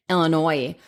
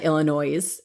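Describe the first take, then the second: First: Said in the usual way. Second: "Illinois" ending in a voiced S, like "noise"; sounded final S. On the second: Host imitating the video's narrator, "Illinois" with the final S voiced. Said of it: "he called it Illinois".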